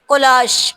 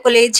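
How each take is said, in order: First: It is said like 'kolash', ending in sh. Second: It is said like the word 'college'. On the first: The speaker calls it right. "इसकी pronunciation है कोलाश" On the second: The speaker calls it wrong. "हम लोग तो समझते थे शायद ये कॉलेज कॉलेज है तो बच्चे इसको कॉलेज ही पढ़ेंगे"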